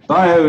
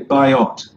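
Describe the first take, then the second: First: It is said in a French accent, final t silent. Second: It is said in an English accent, final t sounded. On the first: "I'm talking in the with a French accent" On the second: "in English you'd say biot"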